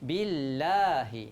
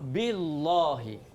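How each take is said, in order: First: The L is said thin, with an A vowel. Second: The L is said heavy, with an O-like vowel. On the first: The speaker calls it right. "Baca nipis" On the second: The speaker calls it wrong. "Tak boleh"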